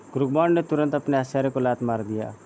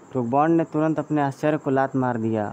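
No difference in how they are said.

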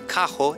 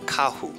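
First: The final vowel sounds like o. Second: The final vowel sounds like u. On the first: "em vez de carro" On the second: "eles pronunciam o O ao final de uma palavra como U"

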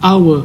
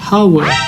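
First: The word begins directly with a vowel sound. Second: The word begins with an audible h sound. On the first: The speaker calls it right. "แต่เราจะออกเสียงว่า hour ซึ่งเสียงจะออกเป็นเสียงสระโอ" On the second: The speaker calls it wrong. "เราจะไม่ออกเสียงว่า"

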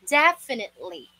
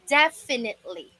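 No difference in how they are said.

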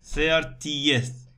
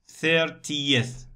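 Both takes have the same delivery.

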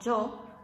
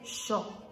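First: It begins with a y-like sound. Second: It begins with a sh sound. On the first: This is how it is said outside Argentina and Uruguay. "en vez de decir algo como yo o yo" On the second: This is how it is said in Argentina and Uruguay. "se dice yo"

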